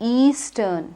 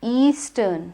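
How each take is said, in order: The two takes are said the same way.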